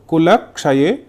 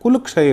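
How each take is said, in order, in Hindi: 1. शब्द का अंतिम स्वर पूरा उच्चारित होकर समाप्त होता है। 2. शब्द अपने अंतिम स्वर के बिना ही समाप्त होता है। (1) "इसे बोलेंगे कुलक्षये" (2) "कुलक्षय नहीं बोला जाएगा"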